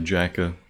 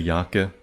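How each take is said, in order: First: The name starts with a 'j' sound. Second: The name starts with a 'y' sound. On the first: This is an English way of saying it. "in English you might say Jaka" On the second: This is the Hebrew way of saying it. "in Hebrew you just say Yaka"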